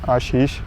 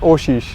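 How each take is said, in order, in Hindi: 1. पहला स्वर एक लंबा, खुला 'a' है। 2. पहला स्वर 'o' की आवाज़ है। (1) "अगर हम हिंदी में बोल लेंगे" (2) "बंगाली में उसने बोल लेंगे"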